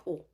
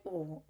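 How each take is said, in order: First: Said in the usual way. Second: Soft, let-down oh, quieter; visibly deflated oh. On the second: Retold or imitated. Hearing the Italian restaurant plan, deflated oh. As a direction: let the air out, disappointed. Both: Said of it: "I very visibly went like".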